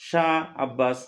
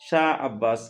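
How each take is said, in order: Both takes have the same delivery.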